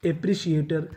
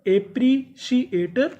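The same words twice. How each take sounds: First: Said in the usual way. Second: एप्रिशिएटर stretched slowly, higher with a rise; slow drawn-out model word. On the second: Shown as a demonstration. Teacher repeats एप्रिशिएटर slowly for pupils to copy. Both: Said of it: "तो पूरी meaning".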